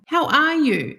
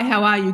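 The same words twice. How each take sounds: First: It is asked with sincere, genuine interest. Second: It is asked in a quick, offhand, routine way. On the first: The asker truly wants to know. The speaker calls it right. "Actually asking" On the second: The asker is only being polite. The speaker calls it wrong. "not going, oh, how's the weather?"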